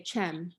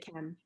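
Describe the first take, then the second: First: It begins with a ch sound, Gulf style. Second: It begins with a k sound, written standard.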